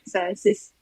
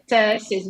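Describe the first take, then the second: First: The word begins with a plain s sound. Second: The word begins with a ts sound. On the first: "you are saying it with S like" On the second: "the first letter C in Latvian it's T, so I will say"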